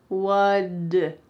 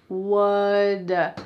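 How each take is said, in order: The two takes are said the same way.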